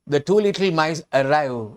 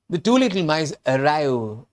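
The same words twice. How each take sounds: The two takes are said the same way.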